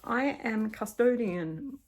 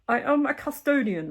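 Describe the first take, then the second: First: It is read in the speaker's ordinary voice. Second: It is read in a put-on aristocratic character voice. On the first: The speaker calls it wrong. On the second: The speaker calls it right.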